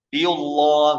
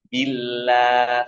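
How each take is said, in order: First: The l sound is heavy and thick. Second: The l sound is light and thin. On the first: The speaker calls it wrong. "Biullah gitu. Salah" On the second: The speaker calls it right. "Misalnya bila tipis"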